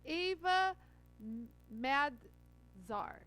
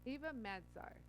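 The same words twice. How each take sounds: First: Ava M-, Madzar sounded out syllable by syllable, very slow; slow careful spelling-out. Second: Said in the usual way. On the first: Shown as a demonstration. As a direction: drag out Madzar to get it right. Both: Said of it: "I'm gonna tell you her name".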